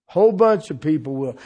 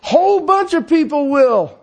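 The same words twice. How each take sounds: First: Said in the usual way. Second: WHOLE hit hard, high and loud; preacher slamming the point on WHOLE; emphatic punch. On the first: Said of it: "repeats the line". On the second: Shown as a demonstration. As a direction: drive home "Whole bunch of people will" with WHOLE punched loud. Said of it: "I got news for you".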